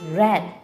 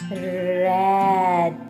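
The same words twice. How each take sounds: First: The word is said quickly as one unit. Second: The word is said at medium speed.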